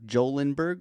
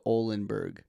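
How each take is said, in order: First: The name begins with a J sound. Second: The name begins without a J sound. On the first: "Do you pronounce a J in this word" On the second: "or do you go Olenberg"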